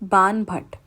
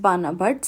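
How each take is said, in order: First: The first part ends without an extra vowel. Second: The first part ends in an extra 'a' vowel. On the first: The speaker calls it right. "say it Ban Bhatt" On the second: The speaker calls it wrong. "don't say it as Bana Bhatt"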